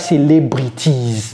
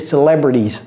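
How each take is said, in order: First: The t is a crisp, released t sound. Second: The t is a quick flap like d. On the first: The speaker calls it wrong. "Ceci n'est pas celebrities" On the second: The speaker calls it right. "c'est celebrities"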